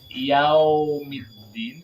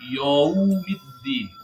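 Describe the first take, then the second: First: The u sound of the first syllable becomes o. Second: The a sound of the first syllable becomes o. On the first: "Yau wawunya jadi o" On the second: "yau ya-nya jadi o"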